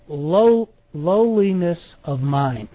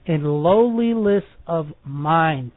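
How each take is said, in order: First: The word lowliness is pronounced more clearly. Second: The word lowliness is pronounced less clearly. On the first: The speaker calls it right. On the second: The speaker calls it wrong.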